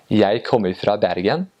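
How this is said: It is said in an Eastern Norwegian dialect.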